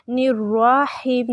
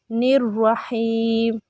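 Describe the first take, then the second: First: निर्रहीम with the ra wrongly drawn out to "raa"; over-stretched ra. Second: निर्रहीम with quick short ra, then long held heem. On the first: Teacher shows the common mistake, long raa. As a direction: lengthen the middle vowel, nir-raa-heem. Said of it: "निर्रहीम नहीं पढ़ना आपने". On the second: Teacher models it for students, short ra. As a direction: keep ra short and stretch only the heem. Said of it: "निर्रा अलग लफ्ज़ है". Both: Shown as a demonstration.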